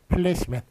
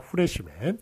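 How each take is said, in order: First: It begins with a p sound and l. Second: It begins with an h sound, Japanese-style. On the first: The speaker calls it right. "정확하게 외래어 표기법에 따라서 쓰자면 플래시맨" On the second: The speaker calls it wrong. "일본의 그 전형적인 발음이 들어왔던 것이죠"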